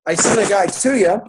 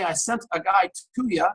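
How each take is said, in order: First: Same line again, louder and higher; louder repeat. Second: Said in the usual way. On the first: Retold or imitated. Boasting to a friend on the payphone, louder and higher. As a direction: push it out like proud news.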